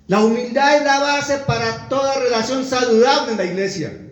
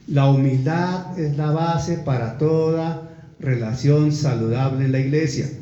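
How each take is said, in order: First: It is read at a normal speed. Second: It is read slowly and deliberately.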